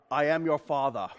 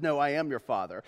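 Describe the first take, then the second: First: Lightly voiced low movie villain; movie villain line. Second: Said in the usual way. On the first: Preacher quoting a misremembered movie line, low villain voice. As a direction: intone it low, like a famous film quote. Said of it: "Which actually is a misquote". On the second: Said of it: "the actual quote is".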